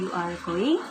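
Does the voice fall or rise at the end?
rise. It is a question with a rising end.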